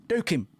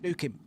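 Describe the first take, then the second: First: Higher and louder shout; excited shout. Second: Said in the usual way. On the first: Real, not acted. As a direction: yell it out.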